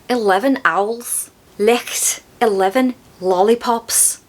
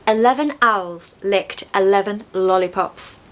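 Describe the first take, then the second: First: It is said in a Scouse accent. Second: It is said in a modern RP accent. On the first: "In Scouse" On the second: "I'll say them in modern R P first"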